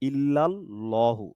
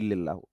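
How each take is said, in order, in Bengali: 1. 'ill' এর পরের স্বরধ্বনিটি 'a'। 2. 'ill' এর পরের স্বরধ্বনিটি 'i'।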